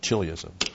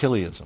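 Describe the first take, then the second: First: It is said with a loose English pronunciation. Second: It is said closer to the original Greek. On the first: The speaker calls it wrong. "They call it chiliasm. Get the English sloppy pronunciation" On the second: The speaker calls it right. "Actually, it should be referred to chiliasm"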